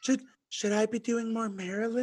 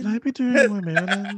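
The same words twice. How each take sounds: First: Soft high mock line; mocking Karen. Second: Mocking Karen. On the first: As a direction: mimic her limp delivery. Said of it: "mocking Karen". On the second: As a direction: ham up the question. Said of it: "mocking Karen again".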